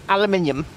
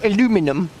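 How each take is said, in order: First: The word is pronounced the British way. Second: The word is pronounced the American way.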